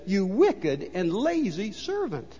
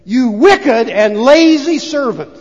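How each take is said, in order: First: Softer, slow and cold reading; quiet rebuke. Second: Loud, very slow master's rebuke; stern rebuke. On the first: Master rebuking the servant, quiet and slow. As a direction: let the rebuke sink in quietly. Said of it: "But the man says". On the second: Master condemning the lazy servant, loud and slow. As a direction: spit out each word of the rebuke. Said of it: "The man says to him". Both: Retold or imitated.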